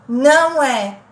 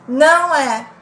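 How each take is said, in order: Both takes have the same delivery.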